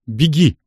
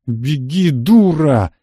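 First: Short command with falling tone; firm but unraised command; ordering. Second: Insistent bark, rising then hitting hard; barked order. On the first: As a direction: order her away, controlled. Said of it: "приказал я Анне". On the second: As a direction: bark it, building louder on the last word. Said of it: "рявкнул я". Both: A narrator's reading.

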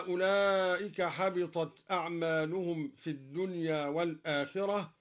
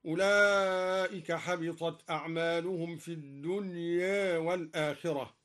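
First: Said in the usual way. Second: الدنيا with its final a slightly tilted toward e; taqlil reading. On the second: Shown as a demonstration. Teacher demonstrating taqlil, الدنيا with a tilted ending. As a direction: end الدنيا with a half-tilted vowel. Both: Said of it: "قلل الدنيا أيضًا".

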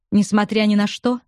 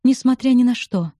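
First: Rising question on "Несмотря"; "Несмотря" lifted, asking in disbelief; doubting question. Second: Defiant, higher, falling firmly on "Несмотря". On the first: Acted. Bobby asking Lucy if she still will, rising question. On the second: A narrator's reading. Lucy defiantly answering Bobby's question, firm fall. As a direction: throw "Несмотря ни на что" back at him. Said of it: "с вызовом ответила Люси".

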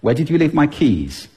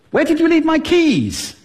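First: Said in the usual way. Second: Very high-pitched, agitated question; worked-up, high-pitched demand; high-pitched arousal. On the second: Shown as a demonstration. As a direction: send the whole question way up high. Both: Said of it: "do it just with pitch".

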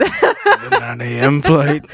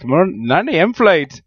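First: Drawn-out, badly faked Irish accent; mock an Irish cabbie's accent, very slowly. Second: Second slow try at a fake Irish accent, a bit higher; badly faked Irish accent, drawn out with amusement; really bad Irish accent. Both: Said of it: "Really bad Irish accent".

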